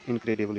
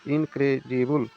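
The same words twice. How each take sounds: First: Said in the usual way. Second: इनक्रेडिबल slowly broken into four syllables. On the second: Shown as a demonstration. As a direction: stretch out इनक्रेडिबल, part by part. (इनक्रेडिबल को धीरे, चार हिस्सों में बोलें) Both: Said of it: "जैसे ही इसका उच्चारण कीजिएगा".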